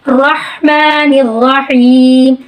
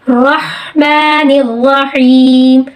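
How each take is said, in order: No difference in how they are said.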